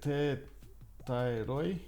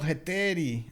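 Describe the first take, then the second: First: The word ends with an 'oy' sound. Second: The word ends with an 'ee' sound. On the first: The speaker calls it wrong. "is it heteroi?" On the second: The speaker calls it right. "In Greece, oi reads as I"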